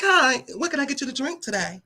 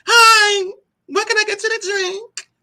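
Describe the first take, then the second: First: Outside voice. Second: High, sweet, put-on politeness; high sugary service voice. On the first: Shown as a demonstration. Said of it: "y'all wanna hear my outside voice". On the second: Taking a drink order, high sugary hostess voice. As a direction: overdo the customer-service sweetness. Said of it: "No, I don't sound like that".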